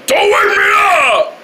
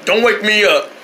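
First: Whiny yell. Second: Said in the usual way. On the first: Acted. Going to bed, he yells at everyone not to wake him. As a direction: yell it like a tantrum. Repeated warning.

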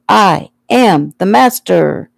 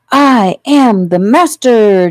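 First: Put-on slow, emphatic childish insistence; exasperated insistence. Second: Put-on high, loud, drawn-out boyish boast; triumphant yell. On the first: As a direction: spell it out with an eye-roll. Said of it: "Joey rolled his eyes". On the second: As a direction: crow it slowly like a little conqueror. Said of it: "Joey yelled triumphantly". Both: A narrator's reading.

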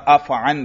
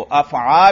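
First: अफ़अन closing on tanween n; short vowel, then n in अफ़अन; measured अफ़अन with a nasal consonant ending; munsarif form. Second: अफ़आ slow, with open long aa; no n at the end of अफ़आ; measured अफ़आ, final vowel held; gair munsarif form. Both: Shown as a demonstration. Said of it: "दोनों तरह पढ़ सकते हैं".

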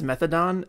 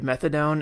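First: "methadone" said the teacher's variant way, with an altered last vowel; teacher's odd pronunciation. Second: Said in the usual way. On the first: Retold or imitated. Host recalling a teacher's way of saying methadone, mispronounced. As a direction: imitate a teacher's unusual "methadone", changing the final syllable. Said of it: "I had a teacher once pronounce". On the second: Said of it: "pronounce the opioid methadone".

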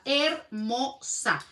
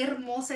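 First: "Hermosa" very slow, in three separate syllables; admiring emphasis. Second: Said in the usual way. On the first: Real, not acted. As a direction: savour each syllable of "Hermosa". Repeats the word in admiration.

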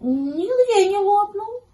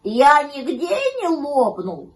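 First: Slow, very high kitten verdict; high-pitched careful kitten; Гав. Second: Slow, loud, raised puppy voice; drawn-out worried pup. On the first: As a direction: draw it out in a piping voice, ending up. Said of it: "Котёнок Гав обошёл вокруг щенка и сказал". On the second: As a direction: ask anxiously, drawing the words out. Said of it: "попросил щенок". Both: A narrator's reading.

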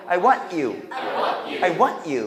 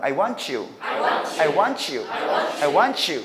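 First: "I want you" with T stopped before you; unlinked "I want you"; cut between words. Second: "I want you" as wan-choo; smooth linked "I want you". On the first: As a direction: halt on "want", then "you". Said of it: "끊어서 발음하는 방법". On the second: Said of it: "연음하는 방법". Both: Shown as a demonstration.

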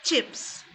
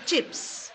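Both takes have the same delivery.

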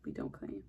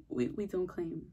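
First: Very low, quiet mock voice; deep joke voice. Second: Said in the usual way. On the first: Shown as a demonstration. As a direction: drop it way down low. Repeats the line deep.

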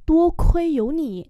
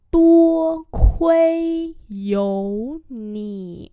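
First: Said in the usual way. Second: Each syllable drawn out slowly; slow teaching repeat. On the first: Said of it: "normal model". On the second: Shown as a demonstration. Teacher slowly models the phrase for students, drawn out. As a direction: spell it out slowly for learners. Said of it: "slow repeat".

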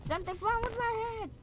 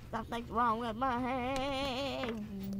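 First: Something's wrong with my head in a much higher, quick silly voice; mock squeaky voice. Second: Something's wrong with my head stretched out slowly at normal pitch; slow drawn-out take. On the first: Gamer joking about his character's head, high quick silly voice. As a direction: jump way up in pitch and rattle it off. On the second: Pretend. Gamer joking about his character's head, slow drawn-out delivery. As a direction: drag every word out, slow and heavy. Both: Repeats line in new voices.

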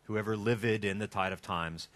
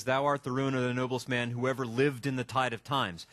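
First: "livid" said in two syllables, LIV-id, so the line scans. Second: Said in the usual way. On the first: Shown as a demonstration. To the class, showing how the line scans: "livid" as two syllables. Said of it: "remind you to say livid". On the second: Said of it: "That is so not iambic pentameter".

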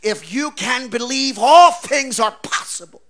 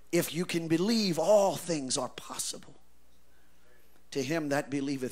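First: Loud, higher, slow proclamation; Jesus' promise proclaimed. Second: Soft, lower, earnest; quiet restatement. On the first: Acted. Preacher voices Jesus' promise to the father, proclaiming loudly. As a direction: ring out the promise. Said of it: "because Jesus says". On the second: Shown as a demonstration. Preacher repeats the verse softly to the congregation. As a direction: say it gently as the answer. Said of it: "So in other words".

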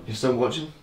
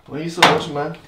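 First: Said in the usual way. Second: Louder, higher mock disbelief; why are you still here, pal; mock incredulous. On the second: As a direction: needle the viewer in fun. Teasing viewers who keep watching.

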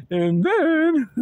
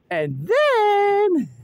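First: Losing voice. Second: High, loud, held-out THEN; drawn-out build-up. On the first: [name] losing voice in the cold, failing voice. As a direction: voice giving out on a drawn-out THEN. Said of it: "I'm losing my voice". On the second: [name] building up to her plan, dramatic drawn-out THEN. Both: Real, not acted.

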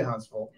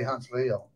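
First: Said in the usual way. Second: "Huntsville" with a full "veel" ending; exaggerated local pronunciation. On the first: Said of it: "we do say Huntsville". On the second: Shown as a demonstration. Alabama native showing what locals don't say, "Huntsville" as Hunts-veel. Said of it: "we don't say Huntsville".

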